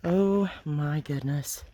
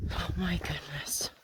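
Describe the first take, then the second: First: Said in the usual way. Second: Breathy, startled whisper. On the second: Real, not acted. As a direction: hiss it under your breath. Startled by a bee.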